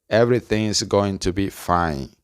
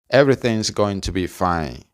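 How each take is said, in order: The two takes are said the same way.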